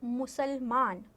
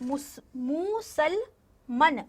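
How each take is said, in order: First: मुसलमान with a long aa in मान; correct pronunciation. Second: मुसलमन read slowly, short a in the last syllable; wrong spelling read out. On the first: Teacher giving the correct form मुसलमान, long aa. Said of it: "लेकिन होता क्या है". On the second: Teacher reading the pupils' misspelling मुसलमन, drawn out. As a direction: sound out मुसलमन with a clipped मन ending. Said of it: "होता है मुसलमान". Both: Shown as a demonstration.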